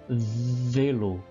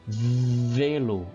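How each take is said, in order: Both takes have the same delivery.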